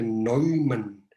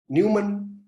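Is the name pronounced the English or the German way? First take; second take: German; English. First: The first vowel sounds like 'oi', German style. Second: The first vowel sounds like 'new', English style. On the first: The speaker calls it right. "como es alemán se pronuncia" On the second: The speaker calls it wrong. "por favor no digan Newman"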